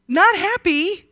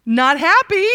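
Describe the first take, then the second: First: Higher still, leaning on not; emphatic. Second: Higher and louder, driving it home; emphatic. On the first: Preacher repeating Laban's displeasure, pitched up higher. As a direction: lift not up high in mock outrage. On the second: Preacher voicing Laban's anger to the class, loud and high. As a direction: punch it out with mock indignation. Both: Pretend.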